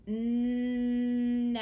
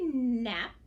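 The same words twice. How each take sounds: First: "Nap" stretched long and louder, separate p; said slowly. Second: Said in the usual way. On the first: Shown as a demonstration. Teacher stretches it on fingers, "Nap" drawn out loud. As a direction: hold "Nap" out, then pop the p. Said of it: "Now let's say it slowly".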